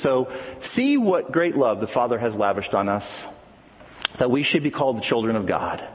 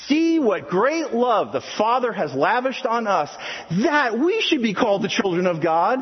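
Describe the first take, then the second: First: It is read flatly, without much excitement. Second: It is read excitedly, like an exclamation.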